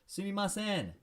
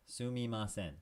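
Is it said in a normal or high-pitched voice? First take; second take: high-pitched; normal. First: It is said in a high pitch. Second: It is said in a normal pitch.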